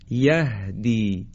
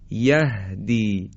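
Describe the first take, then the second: Both takes have the same delivery.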